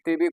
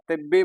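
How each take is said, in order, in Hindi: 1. बीच की b ध्वनि छोटी और एकल है। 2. बीच की b ध्वनि खिंची हुई और दोहरी है। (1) "तशदीद नहीं तो तभी तिबी कुछ भी पढ़ सकती हो" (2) "इसीलिए याद रखना इसको तिब्बी बोलेंगे"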